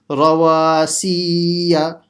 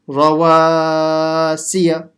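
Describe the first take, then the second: First: Both wa and si are lengthened. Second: Only the middle syllable wa is lengthened. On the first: The speaker calls it wrong. "stretching the si, which is another mistake" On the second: The speaker calls it right. "Only stretching the alif letter in the middle"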